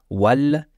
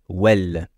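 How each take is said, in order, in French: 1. La voyelle est un son 'ah' ouvert. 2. La voyelle penche vers un son 'eh'. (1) "On ne dit pas wal" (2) "mais plutôt wal"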